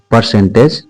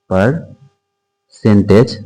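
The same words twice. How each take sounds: First: Said in the usual way. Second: "percentage" very slow, broken after the first syllable; drawn-out dictation. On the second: Shown as a demonstration. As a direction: stretch "percentage" out in pieces, as if writing it. Teacher spells out topic slowly.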